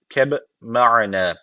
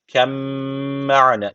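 First: A separate b sound is heard before the m. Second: The b merges into a doubled m sound. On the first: The speaker calls it wrong. "bu yazı olmasa şöyle okuyacağız" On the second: The speaker calls it right. "B harfi yok da mim harfi varmış gibi kabul edeceksiniz. Öyle okunuyor"

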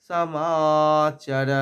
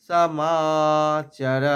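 No difference in how they are said.

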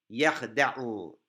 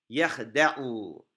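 The two takes are said the same way.

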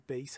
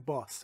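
First: The vowel sounds like 'ay'. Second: The vowel sounds like 'ah'. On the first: This is how it is said in English. The speaker calls it right. "تو انگلیسی بیس هست" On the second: This is how Persian speakers say it. The speaker calls it wrong. "تو فارسی ما اینو میگیم باس"

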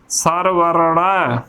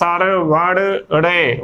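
First: A plain r in the middle, ending in 'a'. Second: A flapped r in the middle, ending in 'e'. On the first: The speaker calls it right. "ਸੋ ਐਦਾ ਉਚਾਰਨ ਕਰਨਾ ਹੈ" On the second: The speaker calls it wrong. "ਸੰਗਤਾਂ ਏਦਾਂ ਉਚਾਰਨ ਕਰ ਦਿੰਦੀਆਂ ਨੇ"

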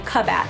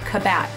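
First: The stress is on the first syllable. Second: The stress is on the second syllable. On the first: The speaker calls it right. "you want to accent the ub" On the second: The speaker calls it wrong. "You don't want to accent the vowel"

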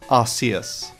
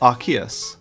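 First: The middle consonant is an S sound. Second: The middle consonant is a K sound. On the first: This is the older pronunciation. "The pronunciation of this Pokémon originally was" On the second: This is the newer, official pronunciation. "was changed to Arceus, probably due to the R sound it made"

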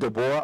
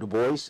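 First: The name is pronounced in a French way. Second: The name is pronounced in an American way. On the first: "the French way" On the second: "the American way"

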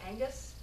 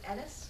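First: The middle consonant is a clear hard G. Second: The middle consonant is soft, with no hard G. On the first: "A lot of other people go Angus because with the hard G" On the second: "I often pronounce it Ennis because I do the GH in the middle"

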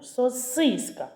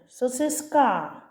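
First: The stress is on the middle syllable. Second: The stress is on the last syllable. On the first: The speaker calls it right. "голосний І. Спробуй стати головним" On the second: The speaker calls it wrong. "Може тоді останній звук А буде головним"

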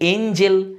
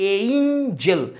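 First: The first vowel sounds like the one in 'bed'. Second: The first vowel sounds like the one in 'day'. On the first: The speaker calls it wrong. "অনেকে বলি এঞ্জেল" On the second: The speaker calls it right. "ব্রিটিশের উচ্চারণ হয় এইঞ্জেল"

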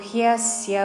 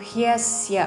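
No difference in how they are said.

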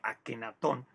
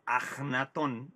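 First: The middle consonant is a hard K sound. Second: The middle consonant is a throaty J sound. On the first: The speaker calls it wrong. "el nombre se ha popularizado con K" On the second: The speaker calls it right. "deberíamos pronunciarlo con la J más"

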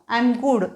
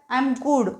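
No difference in how they are said.

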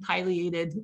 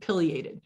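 First: The first syllable sounds like 'pie'. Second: The first syllable sounds like 'pill'. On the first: This is the southern way of saying it. "you notice this whole time I've been saying pileated... That's how everybody down there pronounces it... I like pie better" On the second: This is the local northern way of saying it. "Up here, you'll probably hear the term pileated"

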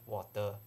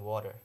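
First: It is said in a Singaporean accent. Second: It is said in an American accent. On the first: "Singaporeans drink water" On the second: "the Americans drink water"

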